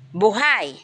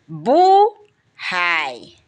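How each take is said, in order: First: The stress is on the last syllable. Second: The stress is on the first syllable. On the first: It means still breathing, alive. "ang diin natin nasa huling pantig" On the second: It means a person's fate. "Ang diin natin ay nasa unahan"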